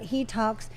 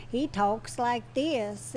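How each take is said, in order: First: Said in the usual way. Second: Put-on slow, drawn-out small-boy talk; affectionate imitation of a child's slow speech; imitating little boy's drawl. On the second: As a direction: draw it out like a five-year-old Forrest Gump. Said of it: "almost like a five-year-old Forrest Gump".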